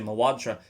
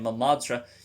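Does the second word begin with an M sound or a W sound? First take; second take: W; M. First: The second word begins with a W sound. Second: The second word begins with an M sound. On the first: The speaker calls it right. "you want to say mawadra" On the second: The speaker calls it wrong. "You don't want to say mamadra"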